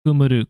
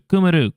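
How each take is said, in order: First: Said in the usual way. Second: "Kumuru" retried pitched higher, leaning on the first ku; corrected reading. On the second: Shown as a demonstration. Correcting own kana reading, retries "Kumuru" higher. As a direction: say "Kumuru" again, higher, stressing the opening ku. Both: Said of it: "Oh, that's why we're getting wrong".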